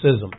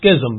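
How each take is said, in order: First: The 'ch' is silent in the word. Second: The 'ch' sound is pronounced in the word. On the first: The speaker calls it right. "you don't pronounce the C-H" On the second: The speaker calls it wrong. "it looks like schism"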